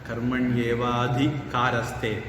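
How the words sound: The break comes after 'evaati', before 'kaaraste'. The speaker calls it wrong.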